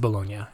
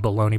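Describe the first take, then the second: First: It is said like the Italian city name. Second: It is said like the lunch meat name. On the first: The speaker calls it right. "but I think it's Bologna, Italy" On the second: The speaker calls it wrong. "like if we're eating bologna"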